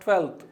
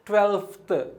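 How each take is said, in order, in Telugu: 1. th ముందు f శబ్దం వినిపించదు. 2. th ముందు f శబ్దం వినిపిస్తుంది. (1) "it is not ట్వెల్త్" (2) "ఎఫ్ పలకాలి కూడా"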